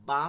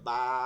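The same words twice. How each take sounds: First: The vowel is said short. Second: The vowel is drawn out long. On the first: "বা ছিল" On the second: "টাইনা টাইনা পড়া"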